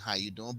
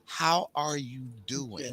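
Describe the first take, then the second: First: It is tossed off as a casual greeting. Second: It is asked with sincere, genuine interest.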